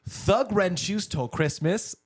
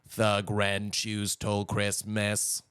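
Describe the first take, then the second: First: It is said in a natural voice. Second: It is said in a robot voice.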